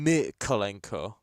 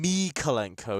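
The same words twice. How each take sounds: First: Mykolenko stressed on the first syllable MY, the rest said with E; correct Ukrainian stress. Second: Mykolenko with the stress moved off the first syllable; wrong stress. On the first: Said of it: "usually on the first syllable". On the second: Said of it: "It's never been Mykolenko". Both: Shown as a demonstration.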